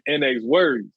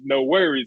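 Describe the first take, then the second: First: The name begins with the letters N and X. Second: The name begins with the word 'no'. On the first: The speaker calls it wrong. "I was pronouncing their name wrong this whole time" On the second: The speaker calls it right. "I wasn't pronouncing it as no worries"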